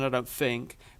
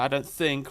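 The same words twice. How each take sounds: First: Think begins with an f sound. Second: Think begins with a th sound. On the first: This is how the speaker's original accent says it. "in my original accent, I just did T H's as F's" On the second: This is how the speaker says it after living in America. "I say think"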